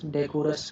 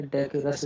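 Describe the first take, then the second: First: "डेकोरस" with an o in the middle; rejected O vowel. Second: "डेकेरस" with no o sound; approved weak middle. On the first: Teacher warning students off a reading, "डेकोरस" with ko. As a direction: say "डेकोरस" with a long ko syllable. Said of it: "कुछ नहीं बोलेंगे". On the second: Teacher giving students the approved form, "डेकेरस" with ke. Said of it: "डेकेरस बोलेंगे इसको". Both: Shown as a demonstration.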